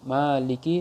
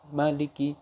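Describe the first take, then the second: First: The first vowel is held long. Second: The first vowel is kept short. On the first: "memanjangkannya satu alif" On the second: "mengkosor satu harokat"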